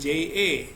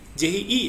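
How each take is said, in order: First: The letter name ends in an 'eh' vowel. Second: The letter name ends in an 'ee' vowel. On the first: The speaker calls it wrong. "bukan je" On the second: The speaker calls it right. "Ji ya, bukan je"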